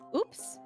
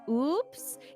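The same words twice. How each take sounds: First: The word is said short. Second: The word is held out longer.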